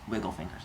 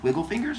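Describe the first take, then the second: First: "Wiggle fingers." said low and soft with a falling end; flat answer. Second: "Wiggle fingers?" asked with a rising end; asking question. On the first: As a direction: drop "Wiggle fingers." down as a plain statement. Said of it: "And she goes". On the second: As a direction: make "Wiggle fingers?" a puzzled question going up. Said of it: "He was like". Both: Acted.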